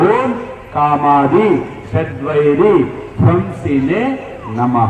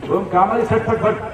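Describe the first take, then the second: First: It is recited slowly with every syllable clear. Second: It is rushed and the words are slurred together. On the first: The speaker calls it right. "నెమ్మదిగా చదవాలి" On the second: The speaker calls it wrong. "గబగబ పాడామనుకోండి"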